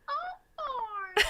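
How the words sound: It is said in a Mickey Mouse voice.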